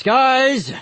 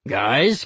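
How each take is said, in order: First: High loud call to stop; shouting. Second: Said in the usual way. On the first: A narrator's reading. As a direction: yell to break it up. Uncle intervenes louder.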